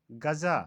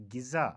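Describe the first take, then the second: First: गज़ा said gha-za; गज़ा as ghaza; mispronunciation. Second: गिज़ा said ghi-za; गिज़ा as ghiza; correct pronunciation. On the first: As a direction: say गज़ा with short a first. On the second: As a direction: say गिज़ा with i first. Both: Shown as a demonstration. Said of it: "का सही तलफ़ुज़".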